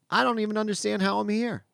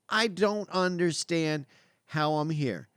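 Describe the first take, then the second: First: Raised, wondering self-quote; mild amazement. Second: Slow, spaced-out self-quote; slow emphasis. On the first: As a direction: marvel at it, pitched up a little. Retells his own amazement. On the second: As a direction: weigh each word, pausing before HOW. Repeats it slowly for emphasis. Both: Retold or imitated.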